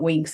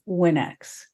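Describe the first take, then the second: First: It is said as one syllable, like winks. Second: It is said as two syllables, win ex. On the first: This is how other people read the title. The speaker calls it wrong. "people call it Winx" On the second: This is the title the author intended. The speaker calls it right. "instead of Winx"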